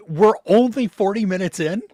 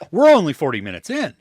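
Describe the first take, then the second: First: "only" stretched and lifted high; stress on only. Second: "We're" punched, rest quick; stress moved to were. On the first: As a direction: lean on "only" and let it rise. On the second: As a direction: lean on "We're", then rush the rest. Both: Retold or imitated. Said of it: "just saying it differently".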